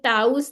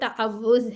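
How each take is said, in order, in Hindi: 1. बीच की 'w' आवाज़ छोड़ दी जाती है। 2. बीच की 'w' आवाज़ दोहराई जाती है। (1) "ये ताउज नहीं है" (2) "ये तावुज है ... वाव दो दफा आ रहा है ना"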